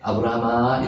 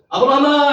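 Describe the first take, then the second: First: The name is said quietly and gently. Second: The name is shouted loudly.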